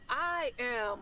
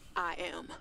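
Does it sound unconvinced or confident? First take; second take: confident; unconvinced. First: It sounds firm and confident. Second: It sounds hesitant and unconvinced.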